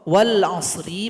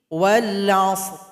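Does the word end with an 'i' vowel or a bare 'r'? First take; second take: i vowel; bare r. First: The final r is followed by an i vowel. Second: The word ends on a bare, heavy r. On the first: The reading continues past this word. "ri berharokat kasrah" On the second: The reader stops at this word. "Karena kita berwakaf atau berhenti, ra menjadi sukun"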